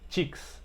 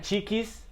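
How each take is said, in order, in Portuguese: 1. Termina seco, sem vogal extra. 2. Termina com uma vogal extra. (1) "Seca essa pronúncia" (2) "Não é cheeks"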